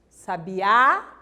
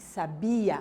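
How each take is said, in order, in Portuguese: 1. A tônica cai na última sílaba. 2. A tônica cai na sílaba do meio. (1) "sabiá é um pássaro" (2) "Sabia é um verbo"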